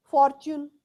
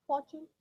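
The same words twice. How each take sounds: First: "Fortune" with a loud, hard rolled r and t; "Fortune" punched out, heavy r; forced "Fortune". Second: "Fortune" soft, with a light ch sound; "Fortune" said gently as "forchun"; relaxed "Fortune"; smooth Fortune. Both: Shown as a demonstration. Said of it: "To work on this t".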